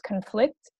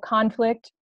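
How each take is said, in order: First: The stress is on the second syllable. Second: The stress is on the first syllable.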